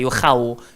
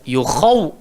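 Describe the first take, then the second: First: The kh sound is thin and light. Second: The kh sound is thick and full. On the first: The speaker calls it wrong. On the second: The speaker calls it right. "huruf kha gemuk"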